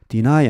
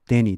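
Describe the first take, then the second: First: It is said as 'dih-nai'. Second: It is said as 'deh-nee'. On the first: The speaker calls it right. "deny 아닙니까?" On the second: The speaker calls it wrong. "자기는 그때까지 그 발음을 데니, 데니로 봐"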